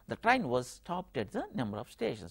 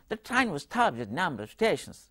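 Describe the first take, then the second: First: Every word gets equal stress. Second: Only the content words are stressed. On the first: This is how Telugu speakers say it. "we give equal uh, that stress uh, to all the words in a sentence" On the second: This is how a native English speaker says it. "He doesn't give equal stress on all the words"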